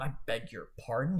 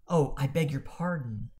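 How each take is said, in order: First: It sounds offended and uppity. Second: It sounds sincere and apologetic.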